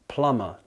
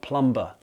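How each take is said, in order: First: The B is silent in the middle. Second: The B is sounded in the middle. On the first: The speaker calls it right. "It's plumber" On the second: The speaker calls it wrong. "not plumber"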